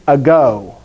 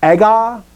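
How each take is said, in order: First: "ago" with the stress on the last syllable; Greek-style "ago", long final o; Greek pronunciation. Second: "ego" with the stress on the first syllable; Latin-style "ego", first syllable leading; Latin pronunciation. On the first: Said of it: "In Greek, it's ago". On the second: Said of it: "this word is ego". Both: Shown as a demonstration.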